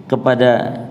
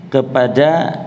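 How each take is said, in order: Both takes have the same delivery.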